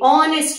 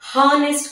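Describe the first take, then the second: First: The word begins with a vowel, no h sound. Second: The word begins with an audible h sound. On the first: The speaker calls it right. "ఇక్కడ హెచ్ silent" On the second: The speaker calls it wrong. "అంతేకాని హానెస్ట్ కాదు"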